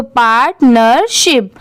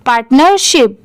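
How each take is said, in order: First: partnership split into part, ner, ship; syllable by syllable. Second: Said in the usual way. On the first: Shown as a demonstration. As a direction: join three separate pieces: part, नर, शिप. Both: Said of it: "इन तीनों को add कर देंगे".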